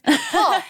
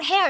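First: The vowel sounds like the one in 'ho'. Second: The vowel sounds like the one in 'hair'. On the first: The speaker calls it right. "like it's Ho" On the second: The speaker calls it wrong. "it's not hair"

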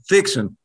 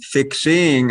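First: The ending is said without the g sound. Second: The ending is said in full with the g.

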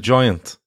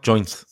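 First: The word is said like 'giant'. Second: The word is said like 'joint'. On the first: The speaker calls it right. "A giant" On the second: The speaker calls it wrong. "Not joint. saying that wrong"

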